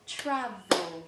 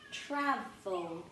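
First: Travel said louder and clearer for the class to echo; repeated louder. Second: Said in the usual way. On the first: Shown as a demonstration. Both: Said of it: "So we've got".

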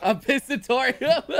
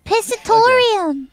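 First: Slow laughing disbelief; laughing question. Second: Much louder, slow triumphant shout; loud proud exclaim. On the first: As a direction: ask it while cracking up. Laughing disbelief at joke word. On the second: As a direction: proclaim the word loudly. Triumphant repeat of joke word. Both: Real, not acted.

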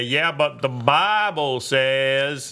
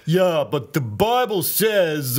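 First: Slow Southern drawl on the Bible line; Southern accent quote in Congress. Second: Put-on slow, higher New York accent; New York accent, a touch louder. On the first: Acted. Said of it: "Southern accent". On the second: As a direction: give it a New York twang. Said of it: "uh, New York".

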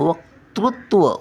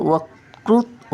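First: वक्तृत्व slowly, with क then तृ; careful वक्तृत्व, k-tru clear; correct version. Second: वकृत- drawn very slowly, without the त sound; stretched mistaken वकृत-; wrong version. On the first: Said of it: "वक्तृत्व असा उच्चार येतो". (बरोबर उच्चार वक्तृत्व) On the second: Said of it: "क्रूचा पहिला येतो उच्चार". (चुकीचा उच्चार वकृत-) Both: Shown as a demonstration.

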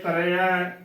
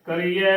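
First: ਕਰੇਆ with short "re" before the open ending; ਕਰੇਆ without a long ee; correct pronunciation. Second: ਕਰੀਆ with long "ee"; wrong pronunciation. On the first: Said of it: "ਉਚਾਰਨ ਕਰਨਾ ਹੈ". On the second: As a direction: say ਕਰੀਆ as "ka-ree-ye". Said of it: "ਉਚਾਰਨ ਗਲਤ ਹੈ". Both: Shown as a demonstration.

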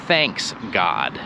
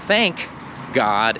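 First: "Thanks God" with a clear s, said low and falling; wrong Thanks God. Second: "Thank" with no s, then "God" lower; correct Thank God. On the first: Teacher showing the wrong form "Thanks God". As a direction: stress the s in "Thanks", then "God". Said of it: "and not". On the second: Teacher showing the right form "Thank God". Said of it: "you can hear that it is". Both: Shown as a demonstration.

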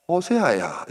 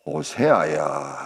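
First: Higher, falling call of the name; God calling. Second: Low, slow, drawn-out summons; God calling. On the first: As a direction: raise the pitch to summon him, then let it drop. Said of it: "또 부르는 겁니다". (높였다가 내리며 부르는 하나님 음성) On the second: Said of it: "또 하나님은". (낮고 길게 부르는 하나님 음성) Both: Acted.

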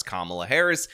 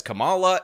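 First: Kamala said KAH-muh-luh, stress first; standard pronunciation. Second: Kamala said kuh-MAH-luh, stress second; mispronounced name. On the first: Shown as a demonstration. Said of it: "doesn't pronounce Kamala Harris's name as". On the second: Retold or imitated. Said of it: "She says Kamala".

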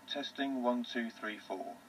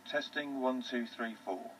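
The two takes are said the same way.

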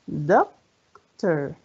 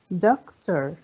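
First: "Doctor" split as doc, long pause, tor; syllable by syllable. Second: Said in the usual way. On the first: Shown as a demonstration. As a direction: count out both parts of "Doctor". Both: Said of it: "كم عدد المقاطع".

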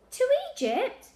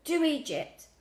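First: Very high, loud rising question; incredulous echo. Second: High gasp with a falling end. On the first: Child echoing grandad's destination, incredulous. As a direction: echo it back in disbelief. Lily echoes grandad in disbelief. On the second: Sick grandad telling Lily where to send it, gasping. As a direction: gasp it out as an instruction. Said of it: "Grandad gasped". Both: A narrator's reading.

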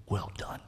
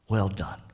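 First: Whispered, soft well done; whispered praise. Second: Said in the usual way. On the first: Acted. Preacher as the Lord whispering praise to the faithful boys. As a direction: breathe Well done like a tender secret. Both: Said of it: "Lord praising the boys".

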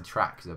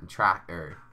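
First: Said in the usual way. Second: Attempted Norfolk pronunciation, "Tracker" for tractor; amateur Norfolk impression of "Tracker"; Norfolk accent. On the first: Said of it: "That's a tractor, by the way". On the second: Shown as a demonstration. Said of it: "about as good as I'm gonna get".

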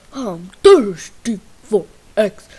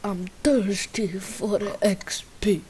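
First: Loud, odd-voiced repeat. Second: Said in the usual way. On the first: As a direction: belt the line out. Louder retake of line.

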